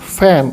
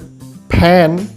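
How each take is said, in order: First: The lips stay apart, giving an f sound. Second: The lips close, giving an aspirated p sound. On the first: The speaker calls it right. "जब सही उच्चारण होता है" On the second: The speaker calls it wrong. "तो उसमें पूरा फैन सुनाई देता है"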